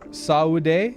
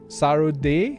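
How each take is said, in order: First: The name is said without a hard R sound. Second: The name is said with a hard R sound.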